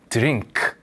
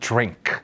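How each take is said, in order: First: It is said with Korean sounds and added vowels. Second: It is said with English sounds, no added vowels. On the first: It is still understood. The speaker calls it wrong. "드링크 하셔도 알아듣습니다" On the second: It sounds cooler. The speaker calls it right. "좀 더 멋지게 가려면 drink 이렇게 하면 돼요"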